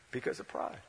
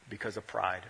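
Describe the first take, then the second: First: The repeat breathed out as a whisper, no voice. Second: Said in the usual way. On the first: Shown as a demonstration. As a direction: let the word pride sink in a whisper. Repeats answer, then whispers it.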